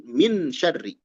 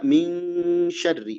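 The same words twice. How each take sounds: First: "min syarri" with the n fully pronounced; clear n. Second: "min syarri" as a long "ming", then syarri; held ikhfa. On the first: Teacher showing the reading to avoid, "min syarri" with clear n. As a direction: plant a plain n at the end of "min", then "syarri". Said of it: "bukan min syarri". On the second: Teacher models how it is read, "min syarri" with held ng. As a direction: hold the hidden n as ng before "syarri". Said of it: "Jadi dibaca". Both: Shown as a demonstration.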